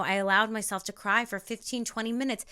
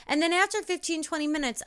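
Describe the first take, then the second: First: Said in the usual way. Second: "twenty minutes" pitched high; lifted repeat. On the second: Shown as a demonstration. Telling viewers her routine, raised repeat. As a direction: start "after fifteen" high, then come down.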